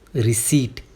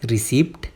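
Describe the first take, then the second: First: The p sound is left out entirely. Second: The p sound is pronounced in the middle. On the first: The speaker calls it right. "यहाँ पे पी silent होता है।" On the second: The speaker calls it wrong. "ना ना ना"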